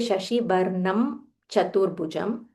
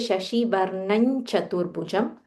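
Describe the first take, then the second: First: The lips close on an m before 'Chaturbhujam'. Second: An n sound flows smoothly into 'Chaturbhujam'. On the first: The speaker calls it wrong. "your lips are coming together and then you have to ch- uh, open" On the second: The speaker calls it right. "it is flowing very smoothly"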